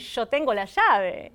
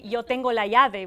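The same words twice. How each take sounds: First: It is said in a Rioplatense Spanish accent. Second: It is said in a general Spanish accent. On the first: "we say" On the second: "we don't say"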